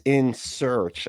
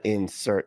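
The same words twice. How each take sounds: First: "In Search" ending in a ch sound; corrected name. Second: "In Search" said as "insert", ending in t; misheard name. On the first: Host correcting the name misheard in his ad, "In Search" with final ch. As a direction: say "In Search" slowly, closing on ch. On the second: Host citing his own mistake, "In Search" pronounced "insert". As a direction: close "In Search" on a t instead of ch. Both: Shown as a demonstration. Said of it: "Not In Search".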